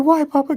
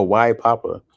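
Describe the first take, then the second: First: Put-on very high, loud little-kid voice; Izzy's voice. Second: Said in the usual way. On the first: Dad showing how his kid asks, high child voice. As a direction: mimic a child asking, pitched way up. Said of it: "'Cause she does that". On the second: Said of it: "I thought you were doing Izzy's voice".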